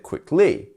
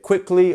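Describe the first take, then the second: First: The stress is on the second syllable. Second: The stress is on the first syllable.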